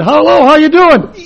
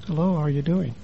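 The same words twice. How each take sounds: First: Louder, higher hearty hello; too loud greeting. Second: Much softer, lower hello; soft hello the therapist approved; quiet greeting. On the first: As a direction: boom the greeting like a street preacher. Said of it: "I said". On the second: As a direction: bring it right down to a hush. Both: Retold or imitated.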